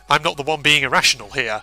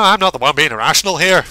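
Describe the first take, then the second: First: It is said in the speaker's usual accent. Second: It is said in a put-on Irish accent.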